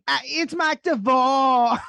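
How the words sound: It is said in an exaggerated put-on accent.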